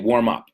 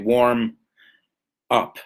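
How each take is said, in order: First: The two words are linked without a pause. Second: There is a pause between the two words. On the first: The speaker calls it right. "See how I don't pause?" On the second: The speaker calls it wrong. "I don't say warm up"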